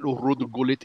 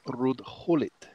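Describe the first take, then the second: First: The surname starts with a hard G. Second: The surname starts with an H sound. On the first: The speaker calls it wrong. "it's not Rud Gulit" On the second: The speaker calls it right. "in Holland you pronounce the G's like H's"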